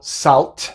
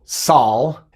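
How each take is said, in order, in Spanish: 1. La T final se pronuncia sin oclusión glotal. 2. La T final se omite por completo. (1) "No digo salt" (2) "tampoco digo sal"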